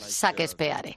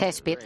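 First: The name is read letter by letter as spelled. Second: The name has its English pronunciation. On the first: The speaker does not know how the name is pronounced. "Si no, tienes que decir Shakespeare" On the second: The speaker knows how the name is pronounced. "si tú sabes que se pronuncia Shakespeare, se debe decir"

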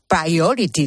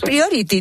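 First: The word is said with an English pronunciation. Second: The word is said with a Spanish pronunciation. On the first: "no he dicho priority, como debería haber pronunciado" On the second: "para nosotros es priority"

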